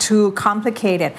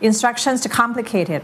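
First: TOO drawn out before complicated; stress on TOO. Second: "too" swallowed into complicated; too run together. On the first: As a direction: lean long and slow on "too". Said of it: "ที่มันมีตัวขยายเห็นไหมฮะ". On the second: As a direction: rush "too" into the next word, unstressed. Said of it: "อย่าไปรวบ มันจะกลายเป็น". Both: Shown as a demonstration.

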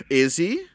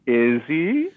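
First: Loud, high rising question; pointedly sceptical, pitched up; teasing doubt. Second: Drawn-out, high rising question; needling repeat, loud and swooping up; teasing doubt. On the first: Co-host teasing that Deckard is no person, teasing doubt. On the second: Co-host teasing about Deckard being human, drawn-out doubt. Repeats the tease after laughter. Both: Pretend.

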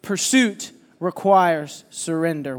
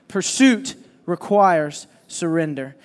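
First: Slow and weighty, stress on requires; slow emphatic statement. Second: "requires" stressed, slow and deliberate; slow emphatic repeat. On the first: Preacher to congregation, slow emphatic repeat. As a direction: lay each word down, "requires" leaned on. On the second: Pastor has the church repeat it, slow and stressed. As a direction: say it again, slower, weight on "requires". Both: Shown as a demonstration. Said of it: "One more time".

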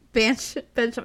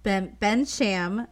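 First: "Bench-" tried first, then "Bensham"; unsure place name. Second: "Bensham" said slowly as BEN-shum; careful place name. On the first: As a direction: stumble on "Bench-" before "Bensham". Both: Shown as a demonstration. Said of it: "in Bensham".

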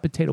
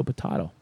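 First: "potato" with long a, puh-TAY-toe; plain American "potato". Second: "potato" with broad ah, puh-TAH-toe, dropped low; potahto. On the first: Asking friend about potato variants, long a. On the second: Asking friend about potato variants, broad ah. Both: Shown as a demonstration. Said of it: "What about potato".

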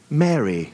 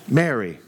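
First: A hint of British accent, said with a laugh; gentle British accent. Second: Gentle. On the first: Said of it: "the most gentle way I can see it, with, of course, like, a British accent". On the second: Retold or imitated. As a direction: call "Mary." kindly, as Jesus would. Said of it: "the most gentle way I can see it".

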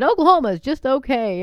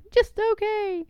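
First: Mock slogan. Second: High, sarcastic sneer at the slogan; scoffing at a state license plate, high and sarcastic; mocking. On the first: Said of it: "My mom made fun of 'em". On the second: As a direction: pitch it way up to mock it. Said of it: "I'm like".

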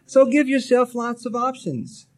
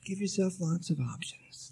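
First: Louder and higher; emphatic advice. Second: Softer, quiet repeat; soft echo. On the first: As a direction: announce it firmly. Repeated advice, first take. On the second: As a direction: let the repeat fall gently. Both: Real, not acted.

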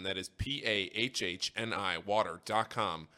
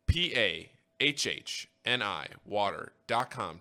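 First: Said in the usual way. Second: P A H H N I water dot com spelled slowly, each letter separated; slow down and space out each letter of P A H H N I; slow spelling. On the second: Shown as a demonstration.

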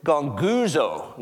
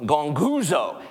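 First: "gonguzo" said slowly, each syllable drawn out, gong-gu-zo; Greek word gonguzo. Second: Said in the usual way. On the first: Shown as a demonstration. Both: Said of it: "the Greek word is".

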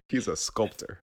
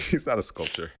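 First: "sculptor" said right, ending in a clean "tor"; crisp "sculp-tor" with a hard t; corrected word. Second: "sculptor" said like "sculpture", ending in a "cher" sound; mispronounced word. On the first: Host fixing her slip, "sculptor" said properly. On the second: Host botching the word, saying "sculptor" as "sculpture". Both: Shown as a demonstration.

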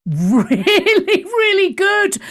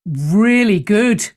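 First: "Really, really good" laughed out, jumping high; laughing. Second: Said in the usual way. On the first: Real, not acted. Laughs through repeated praise.

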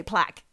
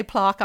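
First: "plaque" with a short a, like plack. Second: "plaque" with a long ah, like plark. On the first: Giving own way of saying it, short-a "plaque". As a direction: say "plaque" to rhyme with back. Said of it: "I say plaque". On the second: Quoting how friend says it, long-ah "plaque". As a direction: say "plaque" with a drawn ah vowel. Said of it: "You say plaque, I say plaque". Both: Shown as a demonstration.

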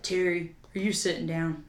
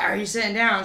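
First: Soft, lower, serious dad voice; grave quiet warning. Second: Said in the usual way. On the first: Retold or imitated. Dad calling mom with news, low quiet gravity. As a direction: break bad news gently, quietly. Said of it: "and was like". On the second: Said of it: "And he was like".

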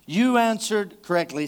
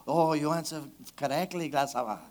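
First: Said in the usual way. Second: Put-on playful Spanish accent, a bit lower and softer; mock Spanish accent. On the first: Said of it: "say it with an accent". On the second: Pastor reading Jesus to the congregation in a mock Spanish accent. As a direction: toss off "gracias" in a jokey Spanish accent. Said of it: "don't you want to say it with an accent".

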